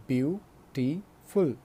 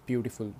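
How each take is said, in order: First: Beautiful split slowly into beau, ti, ful; three separate syllables. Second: Said in the usual way. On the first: Shown as a demonstration. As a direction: say beautiful in three beats with clear gaps. (beautiful को तीन हिस्सों में तोड़कर, धीरे-धीरे) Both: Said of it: "जो तीन बार तोड़कर बोले जा सके".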